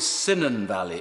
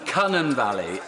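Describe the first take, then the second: First: The first syllable of the name sounds like 'sigh'. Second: The first syllable of the name sounds like 'cun'. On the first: It imitates how someone else mispronounced it. The speaker calls it wrong. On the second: It is the local pronunciation of the name. The speaker calls it right.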